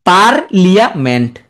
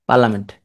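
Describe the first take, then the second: First: Slow পার্লিয়ামেন্ট, broken as par ... lia ... ment; spelling pronunciation. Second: Said in the usual way. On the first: Shown as a demonstration. Teacher making the spelling stick, slow chunked পার্লিয়ামেন্ট. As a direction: split পার্লিয়ামেন্ট and sound the i-a. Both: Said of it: "এখন ভুল হবে না আর".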